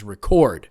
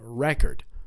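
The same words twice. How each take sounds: First: The stress is on the second syllable. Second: The stress is on the first syllable. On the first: It names the action of writing information down. "The action to write down the information is record" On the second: It names a thing, a set of written information. "The noun is on the first syllable"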